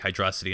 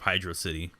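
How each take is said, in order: First: It is said as one word rhyming with atrocity. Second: It is said as two words, hydro plus city. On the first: "why I say Hydrosity" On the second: "instead of Hydro City"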